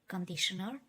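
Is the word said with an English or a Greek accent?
English. It is said with an English accent. "we write it just like in English"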